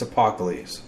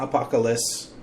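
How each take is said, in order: First: Apocalypse said as the speaker's own name; name pronounced correctly. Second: Apocalypse said as the guest mispronounced it; name mispronounced. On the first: Podcaster correcting Ricky on the name, intended pronunciation. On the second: Podcaster showing Ricky the error, mimicked mispronunciation. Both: Shown as a demonstration. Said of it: "You said my name wrong".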